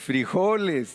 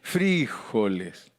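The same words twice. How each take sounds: First: The stress falls on the syllable 'jo'. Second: The stress falls on the syllable 'fri'. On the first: This is the speaker's own usual way. "lleva acento en la O" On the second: This is how Colombians say it. "Ellos se lo ponen en la I"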